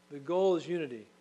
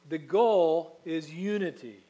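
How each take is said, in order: First: Said in the usual way. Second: Slow, loud, weighty "The goal is unity"; slow loud proclamation of "The goal is unity"; emphatic unity. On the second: Shown as a demonstration. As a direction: proclaim "unity" slowly and loudly.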